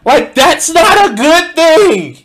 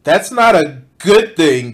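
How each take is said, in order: First: High, loud, slow disbelief; exasperated emphasis. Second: Said in the usual way. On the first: Real, not acted. Reacting to the narrator on violence, loud disbelief. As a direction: hammer it home, incredulous.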